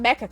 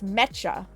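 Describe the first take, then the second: First: The 'ch' sound is short and single. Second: The 'ch' sound is held long and doubled. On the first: The speaker calls it wrong. "So it's not Mecha Chameleon" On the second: The speaker calls it right. "you have to pronounce the ch like twice"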